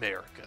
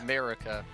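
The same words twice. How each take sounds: First: It is said with a deep growl. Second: It is said in a normal voice.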